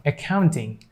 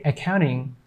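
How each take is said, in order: First: Said in the usual way. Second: "accounting" said as "accouning"; American silent T. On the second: Shown as a demonstration. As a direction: drop the T in "accounting". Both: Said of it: "But they say accounting".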